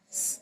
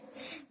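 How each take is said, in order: The two takes are said the same way.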